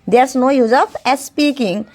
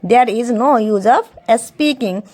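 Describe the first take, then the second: First: The words 'there is' are contracted to one syllable. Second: The words 'there is' are said in full.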